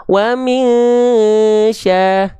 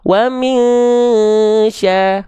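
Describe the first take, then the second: Both takes have the same delivery.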